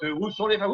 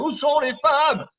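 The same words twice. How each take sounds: First: Said in the usual way. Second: High, loud and slow mock lament; hammed-up high loud cry, drawn out; mock wail. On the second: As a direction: wail it like a comic plea to the crowd. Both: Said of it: "où sont les femmes repeated".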